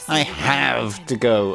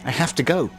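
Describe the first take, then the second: First: The stress is on the word have. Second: The stress is on the word go.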